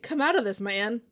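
The line is read with odd, exaggerated intonation.

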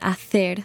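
The c is said as th, Spain style.

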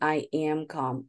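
It is said in a calm, soothing voice.

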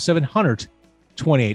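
It is said in a strong Chicago accent.

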